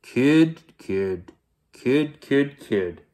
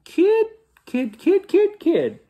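First: Big bear's put-on deep voice; deep storybook bear. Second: Tiny squeaky falsetto animal; piping squirrel voice; high voice. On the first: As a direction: say it like a huge heavy creature. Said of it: "sing in a deep voice". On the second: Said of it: "saying in a high voice". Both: A narrator's reading.

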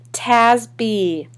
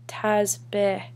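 First: Tazbih said loudly as "TAZ-bee"; ugly mispronunciation. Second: Tazbih with a short, open final "beh"; correct name. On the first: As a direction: botch Tazbih with a flat "taz" and long "bee". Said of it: "heard my name said so ugly before". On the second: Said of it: "She said it wrong". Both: A narrator's reading.

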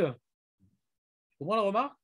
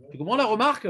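First: Drawn-out, deliberate repeat of the question; slow it right down and press the point; teacher re-asks the class slowly, insistently. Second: Said in the usual way. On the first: Shown as a demonstration. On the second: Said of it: "Tu comprends ou pas?".

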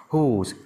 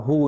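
First: "whose" closed with a sibilant ending; added final s. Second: "who" ending open on the vowel; no final consonant. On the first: Teacher contrasts forms for students, "whose" with final sibilant. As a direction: add the s sound to "whose". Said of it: "nhưng phải S là whose". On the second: Teacher contrasts forms for students, "who" left open. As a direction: say "who" with no s at the end. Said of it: "Bình thường đọc là who". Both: Shown as a demonstration.

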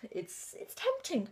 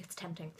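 First: Tempting stretched out slowly and high, with a falling end; drawn-out tempting. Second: Muttered tempting. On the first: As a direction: linger on tempting like a real temptation. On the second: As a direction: throw tempting away under your breath. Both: Shown as a demonstration. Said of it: "Believe me".

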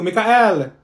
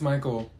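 First: "Mikael" as mee-kah-EL, loud and slow; mispronounced name. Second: "Michael" as MY-kul, softer; corrected name. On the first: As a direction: stretch "Mikael" into three syllables. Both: Acted. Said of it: "Ma'am, it's Michael".

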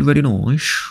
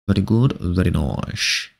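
First: Said in the usual way. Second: Low and drawn out, a touch mock-wise; slow low answer. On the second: Streamer answering chat, low and slow. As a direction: drop the pitch and stretch it slowly. Answering chat's question himself.

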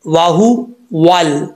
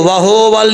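First: वाहुवल slowly, with a short clear hu; correct hu vowel. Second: वहोवल with a long o in the middle; wrong vowel. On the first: Teacher giving students the correct reading, slow careful articulation. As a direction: split वाहुवल slowly, rounded w and tight u. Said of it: "इसको वहोवल नहीं पढ़ना". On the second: Teacher warning against a misreading, wrong o vowel. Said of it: "वहोवल नहीं पढ़ना". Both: Shown as a demonstration.

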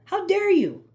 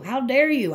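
First: Much higher, mock-indignant narcissist; hammed-up narcissist outrage; mock shrieking outrage. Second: A hint of a jealous narcissist; mocking narcissist outrage. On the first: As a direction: squeal it like an offended narcissist. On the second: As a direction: play the offended narcissist. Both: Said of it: "That's how narcissists think".

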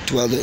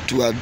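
The two takes are said the same way.

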